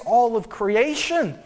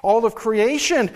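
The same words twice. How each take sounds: First: "all" leaned on, slow and drawn out; slow "all of creation" with the push on "all"; stress on all. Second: Slow "All of creation" with the push on "creation"; stress on creation. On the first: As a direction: land the weight on "all". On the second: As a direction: push the word "creation", slowly. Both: Shown as a demonstration.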